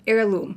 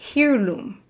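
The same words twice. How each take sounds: First: The word starts with a silent H. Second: The word starts with a sounded H. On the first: The speaker calls it right. "the H is silent" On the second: The speaker calls it wrong. "I said heirloom instead of"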